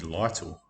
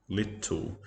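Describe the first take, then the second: First: The first vowel is a long 'eye' sound. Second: The first vowel is a short 'i' sound. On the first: The speaker calls it wrong. "if there was only one T, ... I guess it would be little. ... just like the word title" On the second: The speaker calls it right. "you can get a double double consonant after a short sound"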